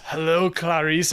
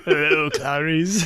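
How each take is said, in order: First: Creepy Hannibal line. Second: Slow Hannibal line. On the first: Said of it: "he goes". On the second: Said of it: "I was like". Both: Retold or imitated.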